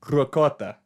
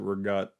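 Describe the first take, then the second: First: It has a clear k sound and a final vowel. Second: It is clipped, with a voiced g and no final vowel. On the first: This is how it is said in Italian. "that's how it's pronounced in Italian" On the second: This is how Italian Americans say it. "Italian Americans pronounce it rigat"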